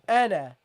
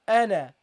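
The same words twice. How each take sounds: First: The final vowel is short. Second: The same.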